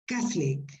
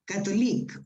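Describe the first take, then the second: First: The middle vowel is dropped completely. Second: The middle vowel is pronounced fully. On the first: The speaker calls it right. "These sounds disappear" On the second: The speaker calls it wrong.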